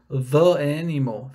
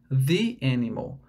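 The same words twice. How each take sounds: First: 'The' is said with a short 'thuh' sound. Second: 'The' is said with a long 'thee' sound. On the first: The speaker calls it wrong. "ficaria meio estranho e geraria até um som meio nasal" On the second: The speaker calls it right. "Então é the animal"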